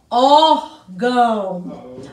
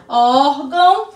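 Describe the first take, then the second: First: "órgão" drawn out very slowly, lower; slow model word. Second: Said in the usual way. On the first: Shown as a demonstration. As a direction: stretch out "órgão" for the class to copy. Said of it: "teacher models the word". ("órgão" dito muito devagar, mais grave) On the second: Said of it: "repeated at a quicker pace".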